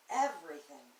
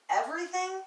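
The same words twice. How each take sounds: First: "everything" as a falling, settled answer; affirming. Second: "Everything" as a high, rising question. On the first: Poet answering the doubting question, falling, final "everything". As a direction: start "everything" up, then drop it to a firm close. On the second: Poet questioning whether it's all temporary, high rising "Everything". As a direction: ask "Everything" louder, climbing high at the end. Poem voices a doubting question. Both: Acted.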